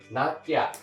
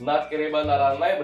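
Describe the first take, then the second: First: The phrase is squeezed into a short form. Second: Every syllable of the long form is said.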